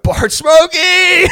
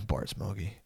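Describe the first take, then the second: First: Loud, high, drawn-out holler; hammed-up drunken yell. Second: Very soft, low catchphrase; wasted mumble. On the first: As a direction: blast the catchphrase out, stretched long. Jay blurts catchphrase at party greeting. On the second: Retold or imitated. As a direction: barely get it out, zonked. Wasted Jay mumbles his catchphrase.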